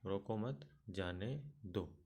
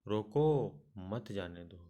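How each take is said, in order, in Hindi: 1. दूसरे शब्द के बाद विराम है। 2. पहले शब्द के बाद विराम है। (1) "तीसरे वाक्य में रोको मत के बाद अल्प विराम" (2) "दूसरे वाक्य में रोको के बाद अल्प विराम"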